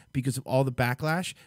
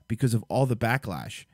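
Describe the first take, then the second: No difference in how they are said.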